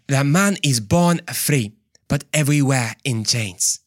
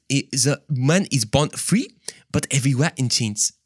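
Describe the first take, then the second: First: Mock African accent. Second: Hesitant, put-on French accent; attempted French accent. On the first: Preacher replaying his botched quote, African accent. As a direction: put on a broad African accent, word by word. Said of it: "That was more like African". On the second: Preacher retrying Rousseau's quote, shaky French accent. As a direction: have a doubtful go at a French accent. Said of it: "a French accent".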